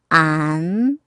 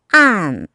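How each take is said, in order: First: The pitch rises from middle to high. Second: The pitch falls sharply from high to low.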